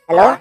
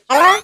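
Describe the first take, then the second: First: The voice is shifted toward a female pitch. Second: The voice is shifted toward a childlike sound. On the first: "hindi masyado babae yung arrange sa boses" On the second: "Hindi din masyadong bata... nag-iba naman na yung boses"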